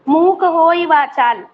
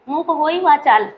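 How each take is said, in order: First: The phrase ends with a held stop. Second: The phrase is said quickly without stopping. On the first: "रुक गए।" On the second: "जल्दी से बोले।"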